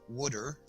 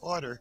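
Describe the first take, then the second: First: It is said in a South Jersey accent, like 'wood-er'. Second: It is said in the speaker's local accent.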